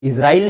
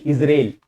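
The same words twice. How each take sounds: First: इजराइल as "is-ra-il", with an open "raa-il"; इजराइल spelt out in sound as "iz-ra-il"; wrong pronunciation. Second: इजराइल as "iz-rel", long e; इजराइल with no "aa", just "iz-rayl"; corrected pronunciation. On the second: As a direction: say इजराइल in two syllables, IZ-RAYL. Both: Shown as a demonstration. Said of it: "इजराइल नहीं".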